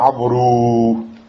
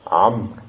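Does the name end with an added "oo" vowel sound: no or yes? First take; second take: yes; no. First: The name ends with an added "oo" vowel sound. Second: The name ends without any final vowel sound. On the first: The speaker calls it wrong. "Tu dis pas Amrou" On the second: The speaker calls it right. "ce waou, on ne le prononce pas"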